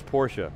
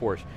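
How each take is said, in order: First: The name is said in its full form. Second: The name is said in a shortened, clipped form. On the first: This is the proper way of saying the name. The speaker calls it right. "The real name is" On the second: This is a regional shortened way of saying the name. The speaker calls it wrong. "a lot of people from the New York metro area call it ... It's an abbreviation"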